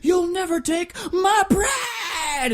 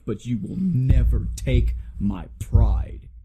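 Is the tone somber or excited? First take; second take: excited; somber. First: It is said in a loud, excited tone. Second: It is said in a quiet, somber tone.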